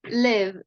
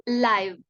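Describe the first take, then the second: First: "live" said as liv, short i like in give; corrected short i. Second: "live" said as laiv, long i like in five. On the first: Teacher correcting herself, "live" with a short i. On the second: Teacher's first slip, saying "live" as laiv. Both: Shown as a demonstration. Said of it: "I'm sorry, live".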